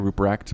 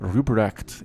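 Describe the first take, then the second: First: The name is said with an American accent. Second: The name is said with a German-style accent. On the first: "if I say it with an American accent, it's easier to say" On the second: "me trying to be authentic to whatever language that is"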